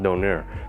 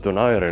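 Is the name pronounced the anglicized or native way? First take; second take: anglicized; native. First: The name is pronounced the anglicized Western way. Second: The name is pronounced the native Filipino way. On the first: The speaker calls it wrong. "not Donaire" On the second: The speaker calls it right. "it's pronounced as Donaire"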